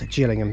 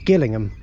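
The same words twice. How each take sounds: First: Gillingham is said the way the Kent town says it. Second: Gillingham is said the way the Dorset town says it. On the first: It names the station in Kent. The speaker calls it wrong. "not Gillingham" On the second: It names the station in Dorset. The speaker calls it right. "So this is Gillingham"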